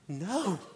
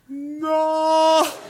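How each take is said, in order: First: It is said at normal speed. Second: It is drawn out in slow motion.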